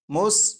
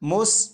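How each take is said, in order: Both takes have the same delivery.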